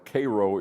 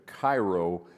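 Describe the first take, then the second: First: It is pronounced the southern Illinois local way. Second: It is pronounced the usual way for Egypt. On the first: The name refers to the town in Illinois. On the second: The name refers to the city in Egypt.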